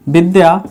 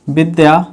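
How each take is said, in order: Both takes have the same delivery.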